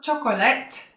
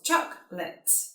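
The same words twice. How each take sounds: First: The word is said with more than two syllables. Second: The word is said with two syllables. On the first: The speaker calls it wrong. "It's not chocolate" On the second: The speaker calls it right. "Two syllables"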